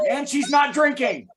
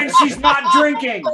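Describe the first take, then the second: First: Said in the usual way. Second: Laughing, a bit louder; laughing tease. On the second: Real, not acted. Host teasing Patty about not drinking, laughing. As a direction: tease her through a laugh.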